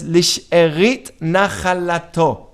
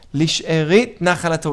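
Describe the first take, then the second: First: Lisherit nachalato said slowly, syllable by syllable; slow Hebrew term. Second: Said in the usual way. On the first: Shown as a demonstration. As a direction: draw out Lisherit nachalato carefully for the class.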